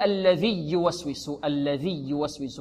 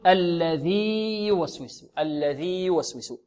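First: الذي يوسوس fused as "alladhiyyuwaswisu", doubled y; wrong merged ya. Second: الذي يوسوس with long "ii" held, then separate "yu"; slow, unmerged "alladhii yuwaswisu" in الذي يوسوس; ya pronounced distinctly. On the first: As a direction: softly show the mistake, cutting الذي short into يوسوس. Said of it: "لا نقول". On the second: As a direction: stretch the end of الذي before starting يوسوس. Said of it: "بل نقول". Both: Shown as a demonstration.

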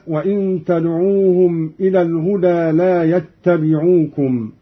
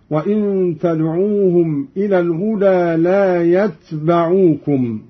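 First: Said in the usual way. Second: "يتبعوكم" as yatbaʿūkum, single unvowelled t; light still ta. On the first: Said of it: "بإسكان التاء مخففة". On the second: Shown as a demonstration. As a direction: recite "يتبعوكم" with a light t and ba open on a. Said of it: "وفتح الباء هكذا".

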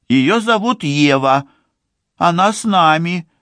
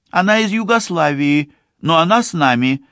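First: Put-on high, thin girl's voice; small timid young woman, pitched high. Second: Put-on high, quick declaring girl's voice; firm young woman, high and quick; man doing a woman's voice. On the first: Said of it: "тонким голосом говорит Ливи". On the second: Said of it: "заявляет Ливи". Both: A narrator's reading.

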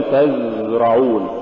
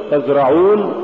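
First: تزرعون with a long buzzing z; tazzz-ra'un, exaggerated z in تزرعون; overdone softness. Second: تزرعون with a brief z; moderately flowing z in تزرعون; balanced zay. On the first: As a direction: drag out the z in تزرعون. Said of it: "ولا تقل". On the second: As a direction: say تزرعون without dragging the z. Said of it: "قل". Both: Shown as a demonstration.

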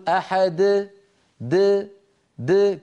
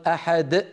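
First: أحد with an open bouncing د, no glottal stop; correct qalqala. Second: أحد closed with a glottal stop after د; wrong qalqala. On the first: Teacher showing the right way, a light bounce on د. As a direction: release the د of أحد freely, throat open. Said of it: "بل يقول". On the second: Teacher showing the wrong way, throat shut after the د. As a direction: end أحد on a hard throat catch. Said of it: "لا يصح أن يقول القائل". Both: Shown as a demonstration.

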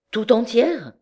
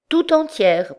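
First: Incredulous, higher-pitched echo; astonished question. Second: Very high, upset wife's voice; distressed confirmation. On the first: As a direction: ask it in disbelief, pitch swooping. Cousin questions her, taken aback. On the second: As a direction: confirm it plaintively, pitched high. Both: A narrator's reading.

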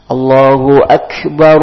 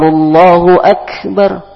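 First: Said in the usual way. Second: Higher, slow adhan-style "Allahu akbar"; call to prayer. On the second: Shown as a demonstration. Teacher giving an example from the azan, slow and lifted. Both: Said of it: "seperti ketika kalian azan".

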